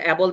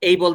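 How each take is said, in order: First: The first vowel sounds like the one in 'cat'. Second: The first vowel sounds like the one in 'day'. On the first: The speaker calls it wrong. "এটা কিন্তু ভুল উচ্চারণ" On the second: The speaker calls it right. "খারাপের ভালো এটা"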